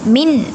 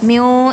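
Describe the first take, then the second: First: The final n is pronounced clearly. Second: The final n is hidden and barely heard. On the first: The speaker calls it right. "എന്ന് തന്നെ വ്യക്തമാക്കിയിട്ട് പാരായണം ചെയ്യാൻ ശ്രദ്ധിക്കുക" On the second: The speaker calls it wrong. "നൂനിനെ മറക്കാനും പാടി മറച്ചു വെച്ച് പാരായണം ചെയ്യാനും പാടില്ല"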